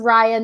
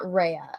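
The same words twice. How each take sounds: First: The first syllable sounds like rye. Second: The first syllable sounds like ray. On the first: The speaker calls it right. "this is pronounced Rye" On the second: The speaker calls it wrong. "not Raya"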